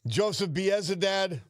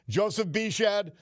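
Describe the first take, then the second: First: The surname is pronounced as Biezadad. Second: The surname is pronounced as Bishad. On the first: This is the pronunciation used on air before. "We said Biezadad" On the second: This is the pronunciation a listener suggested. "it could be Joe Bishad"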